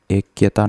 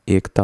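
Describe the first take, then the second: First: ऐक्यता said as "ekiyata"; the mistaken form ऐक्यता, three-part "ek-ya-ta"; wrong extra y. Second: एकता said as "ek-ta"; simple two-beat एकता, "ekta"; correct, no y. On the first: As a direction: put a y syllable inside ऐक्यता. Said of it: "नहीं होता". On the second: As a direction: say एकता with k straight into t. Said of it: "होता है simply". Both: Shown as a demonstration.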